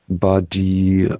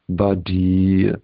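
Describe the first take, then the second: No difference in how they are said.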